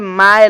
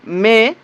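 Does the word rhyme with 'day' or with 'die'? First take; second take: die; day. First: The vowel is a diphthong like 'die'. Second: The vowel is a plain 'ay' sound. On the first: The speaker calls it wrong. "हम गलती कर देंगे" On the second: The speaker calls it right. "ये हुआ इसका शुद्ध उच्चारण"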